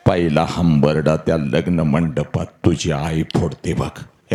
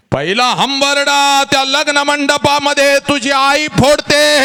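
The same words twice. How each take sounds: First: Said in the usual way. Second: High wailing cry. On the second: Shown as a demonstration. Mother's first wail retold.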